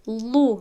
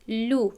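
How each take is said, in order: First: The L is heavy, made at the back. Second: The L is light, made at the front. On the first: The speaker calls it wrong. "لو نمیگویم" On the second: The speaker calls it right. "این لام رو ما باید یعنی خالی تلفظ کنیم... لو میگویم"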